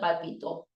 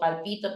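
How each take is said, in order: First: The stress is on the last syllable. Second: The stress is on the second syllable.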